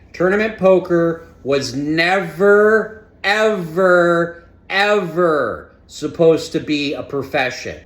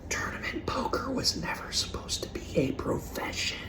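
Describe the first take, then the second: First: It is said more loudly. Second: It is said at normal volume.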